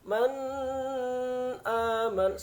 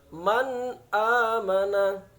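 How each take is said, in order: First: The n sound is blurred, not clearly pronounced. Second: The n sound is pronounced clearly and distinctly. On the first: The speaker calls it wrong. "tidak boleh dibaca man aman, salah" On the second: The speaker calls it right. "Yang benar man amana"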